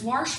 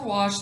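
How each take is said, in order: First: "warsh" with an r, pitched higher; regional pronunciation. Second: Said in the usual way. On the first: Shown as a demonstration. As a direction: say "warsh" with an added r before the sh. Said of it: "if it's "warsh" for "wash".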